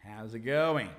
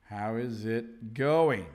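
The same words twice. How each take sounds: First: "How's it going" with "How is" run into "How's"; contracted form. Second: "How is it going" drawn out slowly, "is" kept separate; slow full form. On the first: Teacher giving learners the everyday greeting, contracted. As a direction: run "How's it" together, lower pitched. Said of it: "which is the same as how's it going". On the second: Teacher repeating a greeting for learners, slow and careful. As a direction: say "How is it going" word by word, low. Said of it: "which is the same as". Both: Shown as a demonstration.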